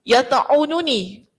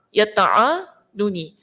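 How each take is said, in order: First: The vowel after the ain is 'u'. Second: The vowel after the ain is 'a'. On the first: "ainnya baris depan" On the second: "dibaca dengan memfathahkan huruf ain. Maksudnya a"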